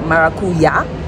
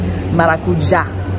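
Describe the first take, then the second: First: The middle consonant is a y sound. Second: The middle consonant is a j sound. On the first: This is how an English speaker would read it. "it's spelled like maracuya. As an English speaker, that's how you would want to pronounce it" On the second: This is how locals in Medellin say it. "but Paisas say maracuja"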